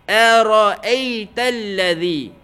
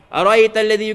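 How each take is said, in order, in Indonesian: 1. Dibaca dengan terbata-bata, ada jeda dan pengulangan. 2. Dibaca dengan lancar dan tempo yang merata. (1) "Tidak lancar sebutan huruf-huruf tu" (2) "Kalau tanpa laju, ... Tengok dia betul"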